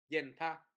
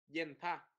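The two takes are said the same way.

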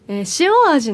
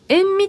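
First: The word is pronounced as shioaji. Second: The word is pronounced as enmi. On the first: The speaker calls it right. "塩味でいいと思いませんか" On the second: The speaker calls it wrong. "音読みだとかっこいいのでしょうね"

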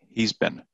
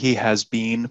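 First: He and has are contracted into one syllable. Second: He and has are said as full separate words. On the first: The speaker calls it right. "This is how people will pronounce it" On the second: The speaker calls it wrong. "People don't say he has been promoted"

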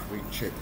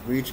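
First: The -ed ending is said as an extra syllable. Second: The -ed ending adds no extra syllable. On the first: The speaker calls it wrong. "and not reached" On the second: The speaker calls it right. "same as for reached, we say reach"

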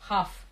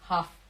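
The two takes are said the same way.

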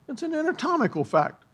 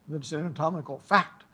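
First: The stress is on the word anatomical. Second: The stress is on the word fact.

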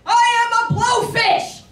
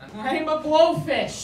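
First: It is said at a very loud volume. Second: It is said at a loud volume.

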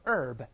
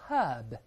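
First: The h is silent and the r is curled. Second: The h sound at the start is pronounced. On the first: "美国人都是H 不发音，加卷是都是herb" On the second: "英国人都是herb"

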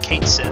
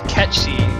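First: The name ends with a 'sith' sound. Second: The name ends with a 'shee' sound. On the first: This follows how the name is spelled. "Everyone pronounces it Kainsith" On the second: This follows the Gaelic source word. "it's supposed to be pronounced Kenshi"

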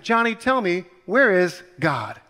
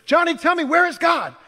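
First: It is asked in a calm voice. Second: It is asked in a loud, angry voice.

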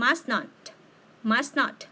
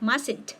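First: It is said as two separate full words. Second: It is said as one contracted word. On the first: "แต่ถ้าเป็นรูปเต็มมันจะออกเสียงเป็น" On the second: "ถ้าเป็นรูปย่อแบบนี้มันจะออกเสียงเป็น"

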